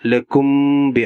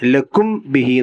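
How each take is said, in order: First: The m before bi is nasalized and held. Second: The m before bi is said clearly. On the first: The speaker calls it right. "അവിടെ മണിക്കണം" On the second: The speaker calls it wrong. "എന്ന് ഓതാൻ പാടില്ല"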